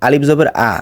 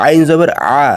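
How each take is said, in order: First: আ as a light open vowel; plain alif. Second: আইন and আ squeezed from inside the throat; throat ain. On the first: Teacher contrasting with ain, light open আ. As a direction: say আলিফ জবর আ with no throat squeeze. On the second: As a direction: say আইন জবর আ with a firm pharyngeal sound. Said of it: "আইনের উচ্চারণ গলার ভেতর থেকে". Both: Shown as a demonstration.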